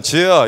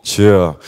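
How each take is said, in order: First: Said in the usual way. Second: Much lower, louder, savoring the name; post-shower suave voice. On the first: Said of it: "평소에는 ... 이렇게 불러요". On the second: Shown as a demonstration. Fresh from the shower, calling wife Jihye in a lower, louder suave voice. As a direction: call her name like a self-styled heartthrob. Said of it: "샤워하고 나오면 꼭".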